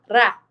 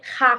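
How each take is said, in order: First: The r is a light tongue tap. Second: The r is a strong throat sound. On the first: "se o R está sozinho no meio da palavra, ele vai fazer ra" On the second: "se tem dois R's, ele vai fazer ra, que é um som mais forte"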